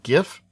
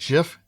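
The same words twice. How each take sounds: First: The word begins with a hard G sound. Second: The word begins with a soft J sound. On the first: This is how most people say it. "pronounces it with a G sound" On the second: This is how the format's creator says it. "pronounced with a J sound"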